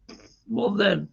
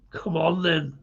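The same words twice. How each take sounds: First: Put-on slow, drawn-out Scottish accent; playful Scottish accent put on while reading beer names. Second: Said in the usual way. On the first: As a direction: drag it out in a broad Scottish accent. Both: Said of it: "when I do a Scottish accent".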